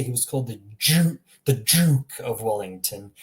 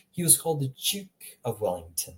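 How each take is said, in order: First: "Duke" with an overdone hard j, like jook; wrong hard j. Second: "Duke" with a soft j, softer British delivery. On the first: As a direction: hit a hard j in "Duke", mock British. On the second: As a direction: say "Duke" lightly like juke, quietly British. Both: Shown as a demonstration. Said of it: "the British people wouldn't say".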